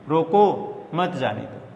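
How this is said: The pause comes right after रोको.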